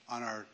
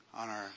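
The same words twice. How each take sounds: The two takes are said the same way.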